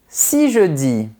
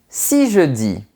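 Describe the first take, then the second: Both takes have the same delivery.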